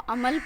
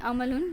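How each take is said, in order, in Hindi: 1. शब्द अपने आखिरी हिस्से के बिना रुक जाता है। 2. शब्द अपना आखिरी "un" हिस्सा रखता है। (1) "उसको अमल पढ़ेंगे" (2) "अमलुन नहीं पढ़ेंगे"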